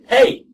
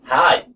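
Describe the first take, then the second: First: It is said with a non-Australian vowel. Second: It is said with an Australian, hi-like vowel.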